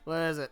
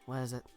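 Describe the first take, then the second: First: It is said in the speaker's own voice. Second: It is said in Tio's voice.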